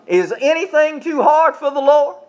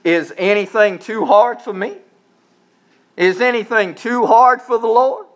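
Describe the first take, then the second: First: "hard" pushed up high, the question thrown out to the crowd; stress on hard. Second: "hard" lifted with a rising question tune; stress on hard. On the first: Shown as a demonstration. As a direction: raise the pitch and call it out to them. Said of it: "Would you say that with me?". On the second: Acted. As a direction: ask it, leaning on "hard" with a rise. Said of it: "he says".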